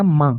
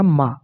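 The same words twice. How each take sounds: First: माँ with the vowel nasalized. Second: Said in the usual way. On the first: Shown as a demonstration. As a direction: let माँ ring through the nose, no closing consonant. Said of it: "नून गन्ना लगाएंगे ऊपर ये चंद्र बिंदु". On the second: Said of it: "अलिफ का हो जाएगा मा".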